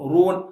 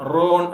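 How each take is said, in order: First: The vowel is a fully rounded oo. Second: The vowel is a heavier, open o. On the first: The speaker calls it right. "ரூன் அப்படின்னு சொல்லும் போது ... உதடு குவியும் பெர்ஃபெக்டான தம்மாவாக" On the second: The speaker calls it wrong. "தடிப்பமா கூட சொல்லலாம்"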